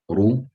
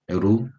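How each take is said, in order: First: The r sounds heavy, full and rounded. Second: The r sounds light, thin and flat.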